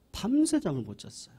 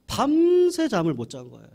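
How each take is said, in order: First: Said in the usual way. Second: 밤새 punched high and loud; stress on 밤새. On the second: A narrator's reading. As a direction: hit 밤새 hard and high. (밤새를 높고 크게 강조)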